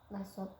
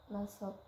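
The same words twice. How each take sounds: No difference in how they are said.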